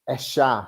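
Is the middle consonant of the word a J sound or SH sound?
SH sound. The middle consonant sounds like an English SH. "they pronounce it like a sh sound"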